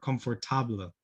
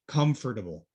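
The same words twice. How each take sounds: First: The middle syllables are fully pronounced. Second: The middle syllables are reduced and squeezed. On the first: The speaker calls it wrong. "Many students will say comfortable" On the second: The speaker calls it right. "here we want to sort of reduce everything in the middle"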